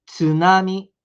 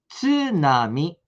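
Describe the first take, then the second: First: "Tsunami" said louder, at normal pace; model word. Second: "Tsunami" drawn out very slowly; slow model word. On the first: Teacher asking the class to say it once more. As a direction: repeat "Tsunami" firmly. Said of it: "Mais uma vez". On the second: Teacher having the class repeat the word slowly. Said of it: "vamos pronunciar". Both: Shown as a demonstration.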